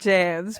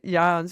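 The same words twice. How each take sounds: First: The name is pronounced the American way. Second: The name is pronounced the Dutch way. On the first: "That does sound very American" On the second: "my mother is Dutch, so that's why I went ahead and pronounced it Jans"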